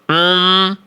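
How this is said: The sound comes out through the nose. The speaker calls it wrong.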